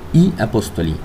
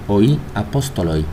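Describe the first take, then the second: First: The final syllable sounds like 'lee'. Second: The final syllable sounds like 'loy'.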